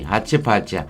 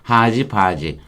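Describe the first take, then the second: First: The middle consonants are voiceless. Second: The middle consonants are voiced.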